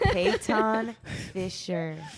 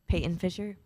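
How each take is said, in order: First: It is said slowly. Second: It is said fast.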